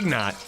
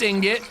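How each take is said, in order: First: The g sound comes before the n. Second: The n sound comes before the g. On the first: The speaker calls it wrong. "I say ignot" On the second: The speaker calls it right. "I know it's ingot"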